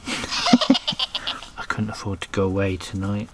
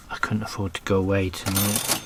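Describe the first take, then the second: First: Laughing through the words; chuckling, a bit slower. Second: Said in the usual way. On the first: Real, not acted. Repeats joke, laughing. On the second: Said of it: "repeated with a laugh".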